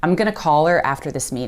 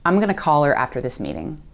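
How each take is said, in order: First: Going to is squeezed into gonna. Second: Going to is squeezed into gonna.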